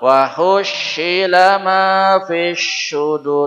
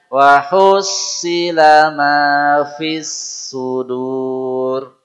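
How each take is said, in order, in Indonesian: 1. Konsonan dalam hussila terdengar seperti sh. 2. Konsonan dalam hussila terdengar seperti s biasa. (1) "Bukan ... itu shin" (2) "kembalikan ke sin dulu. Biasa aja"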